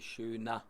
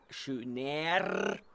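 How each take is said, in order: First: The ending is said as an open 'ah'. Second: The ending is said with a rolled R. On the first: The speaker calls it right. "It's just me pronouncing the er at the end as a ah" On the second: The speaker calls it wrong. "they do not pronounce schöner, especially because the rolling R is not the specialty of the German"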